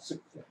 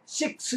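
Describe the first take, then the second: First: The vowel is very short, barely heard. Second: The vowel is a full, clear Korean 'i'. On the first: The speaker calls it right. "그네도 어떻게 해요? 식스입니다" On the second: The speaker calls it wrong. "한국 사람은 정확하게 식스 그립니다"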